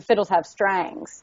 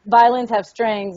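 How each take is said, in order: First: "strangs" with a twangy long "ay" vowel; drawn-out Southern "strangs"; country pronunciation. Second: Said in the usual way. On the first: Retold or imitated. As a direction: say "strangs" for strings, country-style. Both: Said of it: "What's the difference between a violin and a fiddle".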